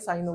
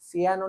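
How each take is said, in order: First: The word begins with a 'sigh' sound. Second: The word begins with a 'see-ah' sound. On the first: The speaker calls it right. "साइनो बोलते हैं वैसे तो" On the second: The speaker calls it wrong. "सियानो नहीं"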